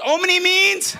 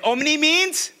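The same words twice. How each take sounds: First: Loud call for the answer; loud rallying call-and-response; shouted question. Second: Said in the usual way. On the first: Real, not acted. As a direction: push the crowd to answer. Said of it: "Come on, guys".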